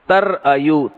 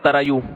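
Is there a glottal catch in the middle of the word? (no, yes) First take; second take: yes; no. First: A glottal catch breaks the word in the middle. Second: The word flows smoothly without a glottal catch. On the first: This is the original form of the word. "इसमें हुरूफ गड़बड़ी या भी है और हमजा भी है" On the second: This is the simplified way people read it. "इसको पढ़ते हैं तरायू"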